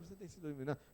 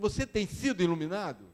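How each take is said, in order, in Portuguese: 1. A pergunta soa casual e sem empenho. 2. A pergunta soa sincera e totalmente envolvida. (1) "Não pergunta assim, ah" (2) "mas pergunta mesmo"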